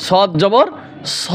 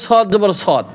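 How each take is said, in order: First: Rising জবর, pause, then short rounded স; correct spelling-out. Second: সদ repeated whole, final d kept; wrong spelling-out. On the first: Teacher correcting what many say, short open স after a pause. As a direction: close on স with no final d. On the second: Teacher quoting what many say, ending on whole সদ. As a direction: end on the full letter name সদ. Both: Shown as a demonstration. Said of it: "অনেকে বলে".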